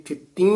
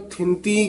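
First: ਥਿੱਤੀ with no n inside, final vowel nasal; nasalised ending. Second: ਥਿੰਤੀ with a full n before the t; common misreading. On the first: Teacher showing the bindi to a pupil, ਥਿੱਤੀ with nasal final vowel. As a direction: let only the last vowel of ਥਿੱਤੀ go nasal. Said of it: "ਇਹ ਯਾਨੀ ਬਿੰਦੀ ਨਾਲ ਬੋਲਣਾ ਹੈ". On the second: Teacher mimicking how many reciters misread it, ਥਿੰਤੀ with a hard n. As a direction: sound a clear n in ਥਿੰਤੀ. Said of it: "ਆਮ ਕਈ ਪਾਠੀ ਸਿੰਘ ਨਾ ਥਿੰਤੀ ਕਹਿ ਜਾਂਦੇ". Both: Shown as a demonstration.

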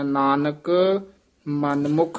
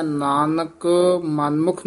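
First: Nanak, clear halt, ਮਨਮੁਖ, halt; pause after each word. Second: Nanak ਮਨਮੁਖ with no pause between; wrongly run together. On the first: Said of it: "ਯਮਕ ਲਾ ਕੇ ਬੋਲਣਾ ਹੈ". (ਨਾਨਕ ਤੇ ਮਨਮੁਖ ਤੇ ਯਮਕ) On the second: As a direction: rush Nanak straight into ਮਨਮੁਖ. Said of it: "ਨਹੀਂ ਕਹਿ ਦੇਣਾ". (ਨਾਨਕ ਮਨਮੁਖ ਬਿਨਾਂ ਠਹਿਰਾਅ) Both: Shown as a demonstration.

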